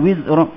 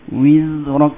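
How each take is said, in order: First: The word is said short and clipped. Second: The word is said a little drawn out. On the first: The speaker calls it wrong. "Bukan wizrak. Bukan pendek" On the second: The speaker calls it right. "Panjang sikit"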